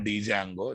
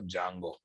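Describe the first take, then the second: First: The D sound is pronounced at the start. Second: The D sound is silent at the start. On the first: The speaker calls it wrong. "Don't say Django" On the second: The speaker calls it right. "D silent"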